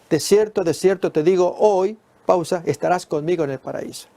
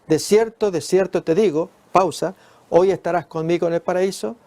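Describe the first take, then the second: First: There is a pause just after hoy. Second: There is a pause just before hoy.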